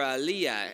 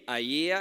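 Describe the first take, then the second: First: The name is said with a clear L sound. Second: The name is said without an L sound. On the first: The speaker calls it right. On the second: The speaker calls it wrong.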